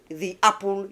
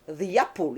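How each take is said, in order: First: There is a break between the two words. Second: A y sound links the two words smoothly. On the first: The speaker calls it wrong. "you have a gap there" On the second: The speaker calls it right. "let's just try Y in this case"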